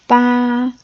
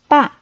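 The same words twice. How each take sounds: First: It is said with a high level pitch. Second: It is said with a sharply falling pitch. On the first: "That's the first" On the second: "and fourth tone"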